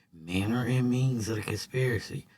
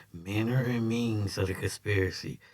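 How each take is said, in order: No difference in how they are said.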